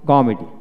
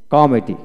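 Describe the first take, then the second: No difference in how they are said.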